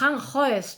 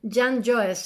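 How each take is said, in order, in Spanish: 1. El primer sonido es una h áspera y aspirada. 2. El primer sonido es una y suave y deslizante. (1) "nosotros diríamos Han Joest" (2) "ellos dicen Jan Joest ... como lo hacen una semivocal"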